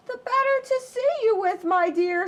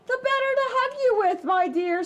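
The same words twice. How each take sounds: First: Much higher, sweet fake granny; wolf hiding behind grandma's voice. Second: Much higher, fast fake granny; wolf as granny. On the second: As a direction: hurry the sweet lie.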